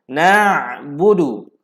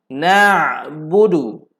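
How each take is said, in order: The two takes are said the same way.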